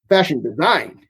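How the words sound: The stress falls on the word design. This is an unusual way to say it. "putting the emphasis on design rather than fashion"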